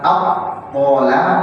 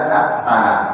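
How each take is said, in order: First: The t sound is heavy and thick. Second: The t sound is light and thin. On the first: The speaker calls it right. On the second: The speaker calls it wrong.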